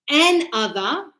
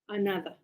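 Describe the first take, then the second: First: It is said as two separate words. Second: It is said smoothly as one word. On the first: The speaker calls it wrong. "It's not an other" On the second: The speaker calls it right. "It's a, a, nada"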